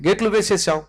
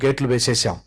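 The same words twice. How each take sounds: First: గేట్లు punched high, then a falling వేసేసాం; గేట్లు said high and emphatic, వేసేసాం falling away; stress on గేట్లు. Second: Said in the usual way. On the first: Shown as a demonstration. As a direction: lift గేట్లు well above the rest and drop off.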